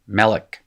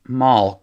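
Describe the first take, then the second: First: The word is said with two syllables. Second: The word is said as one syllable. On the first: This is the later classical Hebrew form. "one syllable words pretending to have two syllables" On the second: This is the older form before classical Hebrew. "It used to be a monosyllable"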